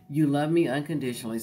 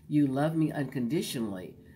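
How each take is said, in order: First: It is said in a plain, flat voice. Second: It is said in a soft, seductive voice. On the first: The speaker calls it wrong. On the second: The speaker calls it right.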